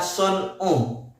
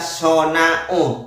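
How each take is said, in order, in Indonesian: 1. Tidak ada vokal setelah n sebelum suku kata terakhir. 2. Ada vokal setelah n sebelum suku kata terakhir. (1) "yang betul itu adalah son'u" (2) "Itu kalau dibaca sona'u oleh Anda ya"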